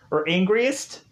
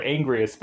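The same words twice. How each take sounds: First: Angriest asked with a doubtful rising tune; unsure question. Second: Angriest said flatly with a falling tune; flat statement. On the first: Testing whether the word exists, angriest with a questioning rise. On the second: Rejecting the made-up word, angriest falling flat. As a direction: state angriest plainly, dropping at the end. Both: Shown as a demonstration. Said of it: "That's not even a word".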